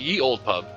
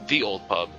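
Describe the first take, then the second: First: The first word begins with a y sound. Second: The first word begins with a th sound. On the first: The speaker calls it wrong. "it's not ye old pub" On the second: The speaker calls it right. "it's the old pub if you pronounce it"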